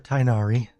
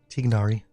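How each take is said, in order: First: The first syllable sounds like "tie", without a g. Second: The first syllable sounds like "tig", with a g. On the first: The speaker calls it wrong. "the in-game dialogue always says Tainari" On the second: The speaker calls it right. "I used to always say say it right at Tignari"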